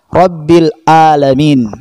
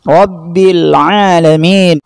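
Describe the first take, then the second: First: Alamin begins with a plain glottal stop. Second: Alamin begins with a throaty ain sound. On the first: The speaker calls it wrong. "Huruf Ain berubah menjadi huruf Hamzah" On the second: The speaker calls it right. "Yang benar adalah membaca sesuai dengan huruf dan makhrajnya"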